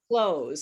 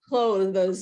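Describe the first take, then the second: First: The TH sound is dropped, like 'close'. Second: The TH sound is clearly pronounced. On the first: The speaker calls it right. "People actually don't pronounce the T H in this word" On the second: The speaker calls it wrong. "not clothes"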